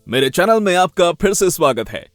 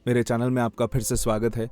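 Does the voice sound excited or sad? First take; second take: excited; sad. First: It sounds excited and smiling, with lively energy. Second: It sounds sad and monotonous, with flat energy. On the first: "पहले excite smile, excitement तो रहनी है।" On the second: "थोड़े sad वे में या monotonous."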